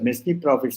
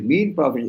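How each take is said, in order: First: The S in the first word is pronounced. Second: The S in the first word is silent. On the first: The speaker calls it wrong. "Most of the people pronounce it as messy profits" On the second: The speaker calls it right. "it is mean profits. S is silent"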